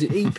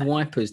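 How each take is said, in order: First: The name sounds like 'eep'. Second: The name sounds like 'wipers'. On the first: The speaker calls it right. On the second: The speaker calls it wrong.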